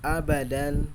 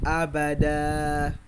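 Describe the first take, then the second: First: The word ends with a short vowel plus n. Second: The word ends with a long vowel, no n. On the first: The reading continues without a stop. "Di sini ada fathatain di huruf da ya" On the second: The reader stops at this word. "kita akan menghilangkan tanwinnya, fathatainnya, dan kita memanjangkan huruf da-nya"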